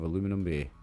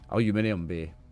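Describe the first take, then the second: First: The metal's name is said with four syllables. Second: The metal's name is said with five syllables. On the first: The speaker calls it wrong. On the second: The speaker calls it right.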